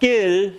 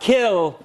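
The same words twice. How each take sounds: First: The k is released without a puff of air. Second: The k is released with a puff of air. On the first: The speaker calls it wrong. "but kill" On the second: The speaker calls it right. "not kill"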